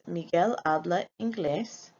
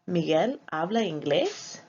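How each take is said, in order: First: The voice falls at the end. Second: The voice rises at the end. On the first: It states a fact. "if the phrase is" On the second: It asks a question. "raise our voice at the end of the sentence"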